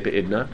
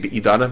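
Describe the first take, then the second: First: No vowel is heard between d and n. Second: A full vowel is heard between d and n. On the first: This is the form commonly used in speech. "you say Be'idna" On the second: This is the technically correct form. "technically Be'idana"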